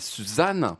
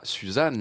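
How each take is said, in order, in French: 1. Le mot finit par une voyelle finale ajoutée. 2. Le mot finit simplement sur la consonne. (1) "cette façon de mettre des 1 à la fin de certains mots" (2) "Les gens qui disent pas"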